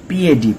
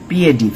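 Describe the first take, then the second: Both takes have the same delivery.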